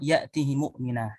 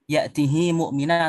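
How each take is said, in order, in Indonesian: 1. Vokal setelah h dibaca pendek. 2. Vokal setelah h dibaca panjang. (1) "bisa dipendekkan" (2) "bisa dipanjangkan"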